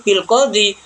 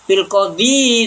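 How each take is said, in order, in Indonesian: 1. Kata itu berakhir dengan i panjang biasa. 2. Kata itu berakhir dengan suku kata -yi tambahan. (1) "tapi bil qadhi" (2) "kok tidak bil qadhi"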